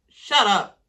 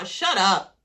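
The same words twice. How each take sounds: First: "Shut up" pushed out louder and harder; fed up with the guys, louder "Shut up". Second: Said in the usual way. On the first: Real, not acted. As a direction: bark the repeated "Shut up". Repeated, louder.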